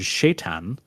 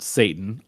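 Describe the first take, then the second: First: The word begins with a 'sh' sound. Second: The word begins with a plain 's' sound. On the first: This is the form used in Middle Eastern languages. "how it's spelled and pronounced in like more uh more like Middle Eastern languages" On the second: This is the modern English form. "That's very modern. That's very anglicized"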